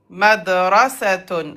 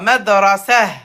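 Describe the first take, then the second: First: The word ends with a full 'atun' ending. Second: The word ends with a breathy 'ah' sound. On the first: The word is said in the middle of speech. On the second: The word is said at a stop.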